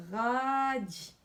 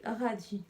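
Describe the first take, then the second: First: "Radis" drawn out, first syllable held long; "Radis" said slowly so each syllable is heard; sounded out. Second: Said in the usual way. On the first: Shown as a demonstration. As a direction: stretch "Ra" then land on "dis". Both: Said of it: "de façon phonologique".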